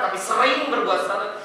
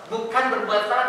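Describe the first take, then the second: First: Sering leaned on, rising at the end; stress on sering. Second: Said in the usual way. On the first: Shown as a demonstration. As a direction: hit the word sering to set it against salah.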